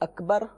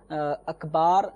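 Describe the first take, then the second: First: The final vowel is short. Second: The final vowel is drawn out long. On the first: It means the greatest. The speaker calls it right. "لفظ اکبر کا معنی سب سے بڑا" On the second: It means drums. The speaker calls it wrong. "اکبار یہ کبرن کی جمع ہے جس کا معنی ہوتا ہے ڈھول"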